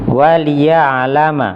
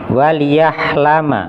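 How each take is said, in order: First: The middle consonant is a throaty ain sound. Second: The middle consonant is an h sound. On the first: The speaker calls it right. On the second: The speaker calls it wrong.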